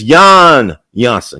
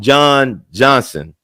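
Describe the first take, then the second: First: The name is said the Dutch way. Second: The name is said the English way. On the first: The speaker calls it right. "it's Jan Johnson because he's Dutch" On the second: The speaker calls it wrong. "I think I call him John Johnson"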